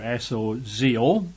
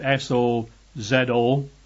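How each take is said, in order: First: The letters are spelled in an American accent. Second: The letters are spelled in a British accent.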